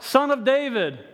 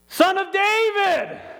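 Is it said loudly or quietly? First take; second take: quietly; loudly. First: It is called out at normal loudness. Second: It is yelled out much louder.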